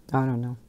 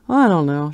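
First: Said in the usual way. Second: Louder, bursting out; emphatic repeat. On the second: Real, not acted. To viewers, baffled by the fake plant, louder emphatic. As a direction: throw up your hands with it.

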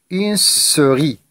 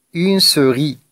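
First: "souris" slowly, with a long initial s; stressed S sound. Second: Said in the usual way. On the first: Shown as a demonstration. Teacher helping pupils find the repeated sound, "souris" with s held. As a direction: draw out the first s of "souris". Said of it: "chercher le son qui se répète". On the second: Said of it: "Je reprends la lecture".

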